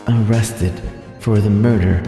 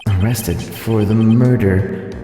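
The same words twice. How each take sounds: The two takes are said the same way.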